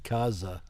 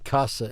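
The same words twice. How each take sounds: First: The middle consonant is a buzzing Z sound. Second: The middle consonant is a hissing S sound. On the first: The speaker calls it right. "making the Z sound" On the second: The speaker calls it wrong. "I always want to say S"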